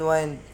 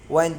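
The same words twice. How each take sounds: First: The vowel is long, as in kind. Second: The vowel is short, as in pinned.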